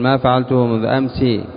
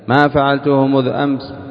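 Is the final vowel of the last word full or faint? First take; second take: full; faint. First: The final i vowel is fully voiced. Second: The final i vowel is barely audible. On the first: The speaker calls it wrong. "فلا تقف بكسرة خالصة" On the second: The speaker calls it right. "بصوت ضعيف"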